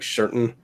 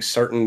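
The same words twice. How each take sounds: First: The first sound is softened with a lisp. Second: The first sound is a plain, clear s. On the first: "a lisp that I that I that does not annoy me" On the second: "Instead of saying certain"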